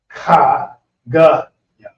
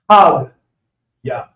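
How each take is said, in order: First: The vowel before ya is pronounced. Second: The vowel before ya is dropped. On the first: The speaker calls it wrong. "instead of saying" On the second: The speaker calls it right. "the a symbol gets dropped out when it's actually pronounced"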